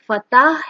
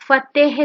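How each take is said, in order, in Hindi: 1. आखिरी अक्षर में a जैसा स्वर है। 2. आखिरी अक्षर में e जैसा स्वर है। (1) "ये लफ्ज फतह है" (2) "फतेह नहीं है, जो आमतौर पर लोग बोलते हैं"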